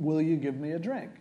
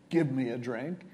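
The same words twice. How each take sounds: First: DRINK lifted into a question; asking, not ordering. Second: Said in the usual way. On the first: Shown as a demonstration. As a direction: ask it as a request, rising on DRINK. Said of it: "He's saying, "Will you give me a drink?". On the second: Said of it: "clearly he isn't saying".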